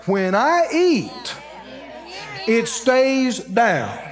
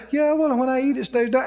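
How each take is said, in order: First: Very slow, each word drawn out; defiant declaration. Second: Imitating people who say it without believing; half-believing recital. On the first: Retold or imitated. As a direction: stand up and proclaim it slowly and firmly. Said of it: "you stand up and you say". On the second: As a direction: toss it off quickly, a little high. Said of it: "this is where people lose it".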